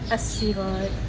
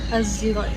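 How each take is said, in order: First: The word begins with a plain s sound. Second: The word begins with a z-like sound. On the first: This follows one reciter's reading. "menukarkan huruf sad tu kepada sin" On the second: This follows another reciter's reading. "akan berbunyi seperti zai"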